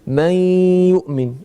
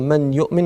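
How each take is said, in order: First: The n merges into the y with nasalization. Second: The n is said clearly, without nasal merging. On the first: The speaker calls it right. "on va fusionner un nun avec al-ya, et en plus de ça, on va appliquer le nasillement" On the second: The speaker calls it wrong. "Au lieu de dire man yu'min"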